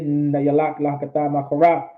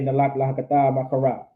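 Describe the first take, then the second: First: The first word keeps its middle syllable. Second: The first word drops its middle syllable. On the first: It is the grammatically correct form. "But it is" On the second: It is a casual slang shorthand. "I just like to say"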